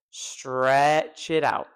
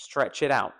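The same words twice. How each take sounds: First: Very slow "stretch" with a long, drawn vowel; elongated STREEETCH, then "it out". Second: Said in the usual way. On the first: Shown as a demonstration. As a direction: drag the vowel in STRETCH right out.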